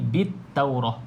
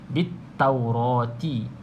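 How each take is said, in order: First: The word ends in an h sound, then stops. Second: The word ends in a t sound plus vowel. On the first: The reader stops at this word. "kita berhenti taurah, kena bunyi ha" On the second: The reader joins it to the next word. "kalau kita sambung bit taurati"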